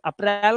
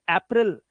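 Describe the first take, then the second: First: अप्रैल as up-RAIL; long vowel at the end of अप्रैल; Hindi-style अप्रैल shown as wrong; wrong Hindi-style form. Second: अप्रैल as AY-pril; short "pril" ending on अप्रैल; teacher's model of English April; correct English form. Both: Shown as a demonstration. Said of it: "अप्रैल नहीं".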